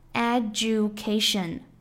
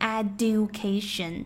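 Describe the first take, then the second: First: The d and y merge into 'ju'. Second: The d and y stay separate, as 'dyu'. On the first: The speaker calls it right. "d 和y 发在一起的时候就会发生变化，成为zh" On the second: The speaker calls it wrong. "很多同学也会读成education"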